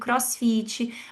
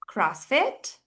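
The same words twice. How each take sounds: First: It is said with a Brazilian Portuguese accent. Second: It is said with an English accent. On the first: "é assim que a gente pronuncia uma palavra em inglês aqui" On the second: "como a teacher pronuncia diferente essas palavras"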